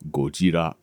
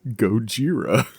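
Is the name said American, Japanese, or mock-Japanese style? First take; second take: Japanese; mock-Japanese. First: The name is said with a Japanese pronunciation. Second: The name is said in an exaggerated put-on Japanese accent. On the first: "The correct way to pronounce the word is Gojira. That is the way the J- Japanese pronounce it" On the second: "the way that Americans think Japanese people pronounce it is Gojira"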